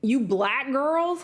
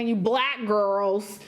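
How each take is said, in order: First: Put-on slow "You black girls?" rising on girls; "You black girls?" drawn out as a question; incredulous quote. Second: Put-on slow, drawn-out "You black girls" with weight on black; "You black girls" said slowly and pointedly; mocking quote. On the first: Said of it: "Who talks like that?". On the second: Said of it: "I don't like how she said it".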